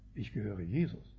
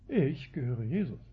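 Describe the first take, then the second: First: The word ich is not specially stressed. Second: The word ich is strongly stressed. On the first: It is a plain statement of belonging. "Man kann sagen" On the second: The speaker looks down on the others. "Du gehörst Paulus? Ich nicht, ja. Man sieht also herab auf die anderen"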